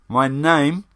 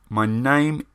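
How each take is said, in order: Both takes have the same delivery.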